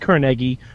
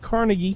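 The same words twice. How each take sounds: First: It is pronounced the local Pittsburgh way. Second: It is pronounced the New York way. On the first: It copies how a local friend says it. The speaker calls it wrong. "I'm saying wrong on purpose because that's how Sorg says it" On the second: It is how the speaker's home region says it. The speaker calls it right. "I'm from New York. We say Carnegie"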